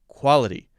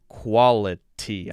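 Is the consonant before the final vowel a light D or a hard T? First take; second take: light D; hard T. First: The consonant before the end is a light D. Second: The consonant before the end is a hard T. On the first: The speaker calls it right. "I'm saying quality. D sound. Light D sound" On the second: The speaker calls it wrong. "I'm not saying quality"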